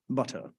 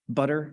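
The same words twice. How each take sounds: First: The middle t is a clear t. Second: The middle t is a quick flap. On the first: "If you're English, maybe you say properly" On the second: "We call that a flap"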